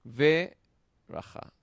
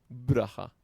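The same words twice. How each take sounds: First: "Ve, raja" with a loud, high, separate opening "Ve"; vocalized sheva. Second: "braja" run together with b and r as one cluster; "braja" in two syllables, no vowel after the b; sheva left silent. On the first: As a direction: open "Ve, raja" with a full vowel, then pause. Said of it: "esta Sheva se vocaliza". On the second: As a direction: drop the first vowel in "braja", loudly. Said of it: "No decimos braja". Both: Shown as a demonstration.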